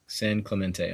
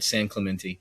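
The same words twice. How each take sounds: First: It is pronounced the way the locals say it. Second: It is pronounced the way a Tennessean says it. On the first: "I think is how they say it" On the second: "I say it from like I'm from Tennessee"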